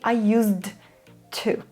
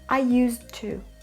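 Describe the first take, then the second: First: The D sound at the end of 'used' is pronounced. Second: The D sound at the end of 'used' is dropped. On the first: The speaker calls it wrong. "You can't say I used to" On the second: The speaker calls it right. "The D sound is gone"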